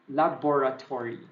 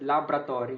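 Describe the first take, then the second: First: The O after 'lab' is clearly stressed. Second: The O after 'lab' is dropped. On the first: The speaker calls it right. "maybe you can just stress the O there" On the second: The speaker calls it wrong. "we often pronounce this without the O"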